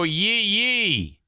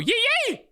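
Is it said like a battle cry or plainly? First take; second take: plainly; battle cry. First: It is said in a plain, ordinary way. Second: It is whooped out like a battle cry. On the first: The speaker calls it wrong. "you don't go yee yee" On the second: The speaker calls it right. "which sounds like something, uh, one of those uh, battle cries from the film Avatar"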